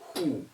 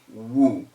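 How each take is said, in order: First: The word begins with a breathy H sound. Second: The word begins with a W sound. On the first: The speaker calls it right. "You say who for W H O" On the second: The speaker calls it wrong. "You cannot say woo for W H O because it is an exception"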